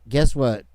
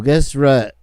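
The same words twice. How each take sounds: First: Said in the usual way. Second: "what" slips into "rut"; tongue-tied slip. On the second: Real, not acted. Host fumbles a taunt at investigators, tongue-tied. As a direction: stumble on "what", starting it with an r. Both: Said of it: "I can't talk anymore".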